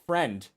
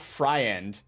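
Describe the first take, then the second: First: The word is said with a single vowel sound. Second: The word is said with an added vowel sound. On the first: The speaker calls it right. "It's it's friend, and that's how it's pronounced" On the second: The speaker calls it wrong. "It's not friend"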